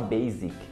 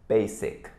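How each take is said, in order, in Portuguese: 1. A consoante do meio tem som de Z. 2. A consoante do meio tem som de S. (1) "que muita gente fala basic, com som de Z" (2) "A pronúncia correta é basic... Com S"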